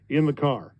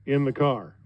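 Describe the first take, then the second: No difference in how they are said.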